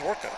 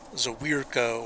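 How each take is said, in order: First: The name is said plainly and simply. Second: The name is stretched with added sounds. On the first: The speaker calls it right. "it's just Zwerko" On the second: The speaker calls it wrong. "they try to overpronounce it"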